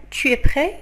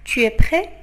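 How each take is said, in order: Both takes have the same delivery.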